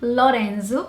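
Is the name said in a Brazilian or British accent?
Brazilian. It is said in a Brazilian Portuguese accent. "in Portuguese"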